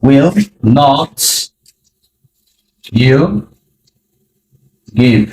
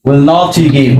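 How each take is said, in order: First: Each word alone after long pauses; slow word by word. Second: Said in the usual way. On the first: Shown as a demonstration. Teacher demonstrating the question to learners, word by word. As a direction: build it one word at a time. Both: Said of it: "ব্যবহার করব will".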